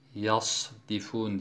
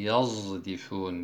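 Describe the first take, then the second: First: The consonant before d sounds like a plain s. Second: The consonant before d sounds like a z. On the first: "yasdifun diye okuduğumuz kelimeyi" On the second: "yazdifun diye okur"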